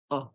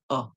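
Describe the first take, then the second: No difference in how they are said.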